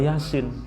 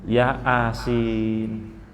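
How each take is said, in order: First: It is said as one smooth word. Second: It is split into two parts, ya and asin. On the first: The speaker calls it right. "Bukan Yasin" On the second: The speaker calls it wrong. "Karena i-nya dua, a-nya satu. Maka baca ya asin"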